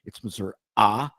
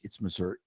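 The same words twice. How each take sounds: First: "Missouri" ending on an emphasized "ah"; rural Missouri pronunciation. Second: "Missouri" with a standard -ee ending; Saint Louis Missouri pronunciation. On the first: Host showing how rural locals say it, ending in "ah". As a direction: say "Missouri" as "Mizzur-AH". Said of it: "if you're in rural Missouri". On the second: Host showing how Saint Louis says it, ending in "ee". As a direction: say "Missouri" as "Mizzur-EE". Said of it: "like, Saint Louis". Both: Shown as a demonstration.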